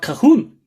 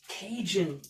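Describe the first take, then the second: First: The middle consonant is a soft h sound. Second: The middle consonant is a j sound. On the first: The speaker calls it wrong. "I always thought Cahoon, like how the Mexicans and so on speak" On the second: The speaker calls it right. "I would have never thought that it's pronounced as Cajun"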